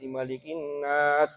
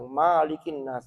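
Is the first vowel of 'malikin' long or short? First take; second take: short; long. First: The first vowel of malikin is short. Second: The first vowel of malikin is long. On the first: The speaker calls it right. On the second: The speaker calls it wrong.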